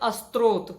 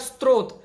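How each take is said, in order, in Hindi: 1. शब्द की शुरुआत में एक अतिरिक्त 'अ' स्वर जोड़ा गया है। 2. शब्द सीधे s संयुक्ताक्षर से शुरू होता है। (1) "कई लोग बोलते हैं अस्त्रोत, गलत है" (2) "इसी प्रकार स्त्रोत"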